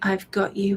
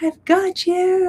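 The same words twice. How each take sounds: First: It is said at a normal, calm volume. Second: It is said loudly, like a yell.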